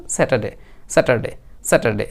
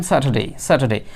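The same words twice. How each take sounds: First: "স্যাটারডে" quick and simple, as se-ta-day; common everyday pronunciation. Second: "স্যাটারডে" with the r silent and a breathy th-like t; British-style pronunciation. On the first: Teacher quoting what most of us say, everyday pronunciation. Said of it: "আবার সরাসরি আমরা simply যেটা বলি". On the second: Teacher telling learners how to say it, British-style pronunciation. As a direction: say "স্যাটারডে" as sa-tha-day, dropping the r. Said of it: "তাহলে আপনি বলবেন". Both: Shown as a demonstration.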